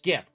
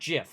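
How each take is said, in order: First: The word begins with a hard G sound. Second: The word begins with a soft J sound. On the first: The speaker calls it right. "It's GIF, Graphical Interchange Format" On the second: The speaker calls it wrong. "It's not GIF, everybody"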